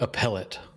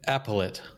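First: The word begins with a weak 'uh' sound. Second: The word begins with a sound like 'apple'. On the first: "as opposed to appellate" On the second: "You said appellate"

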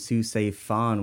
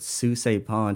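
First: The last name starts with an F sound. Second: The last name starts with a P sound. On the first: The speaker calls it wrong. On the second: The speaker calls it right.

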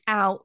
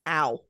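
First: It is a light, casual cry. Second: It is a deep, pained cry.

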